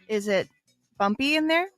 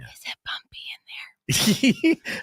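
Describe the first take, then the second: First: It is spoken in a normal voice. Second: It is whispered.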